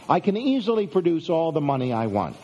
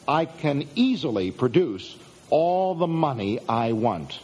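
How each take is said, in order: First: Said in the usual way. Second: Measured, spaced out, with weight on "easily"; deliberate statement. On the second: Shown as a demonstration. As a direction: present it slowly, pausing before "all the money I want". Statement first presented, slowly and deliberately.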